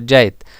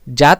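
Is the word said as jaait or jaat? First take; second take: jaait; jaat. First: An i is inserted, with a softer final t. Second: One vowel, with a forceful final t. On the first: "अपनिहिति लगाकर ई लगा दिया जाता है" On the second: "त में आपको ज़्यादा ताकत देना पड़ेगा"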